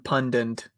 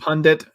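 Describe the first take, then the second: First: The second syllable sounds like 'dent'. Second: The second syllable sounds like 'dit'. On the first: "American pundit" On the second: "Canadian pundit"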